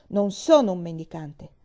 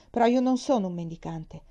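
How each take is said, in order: First: Louder, proud insistence on sono; boy asserting his dignity, with a touch of pride. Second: Offended. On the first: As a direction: repeat it with a sudden flash of pride. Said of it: "ripeté con un'improvvisa punta di orgoglio". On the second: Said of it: "aggiunse da ultimo offeso". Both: Acted.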